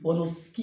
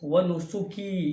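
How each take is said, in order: First: The s and k run together without a vowel. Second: A vowel is heard between s and k. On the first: The speaker calls it wrong. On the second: The speaker calls it right.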